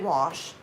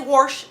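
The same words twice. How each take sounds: First: The word is said without an R sound. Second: The word is said with an R sound. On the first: The speaker calls it right. "I say wash" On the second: The speaker calls it wrong. "I don't say wash anymore"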